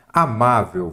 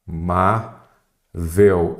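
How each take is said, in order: First: Said in the usual way. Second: "Amável" very slow, split a-má-vel with pauses; syllable by syllable. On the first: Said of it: "vamos lá?". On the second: Shown as a demonstration. Teacher separating the word for students, "Amável" syllable by syllable. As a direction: sound out "Amável" one syllable at a time. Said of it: "qual que é a sílaba tônica?".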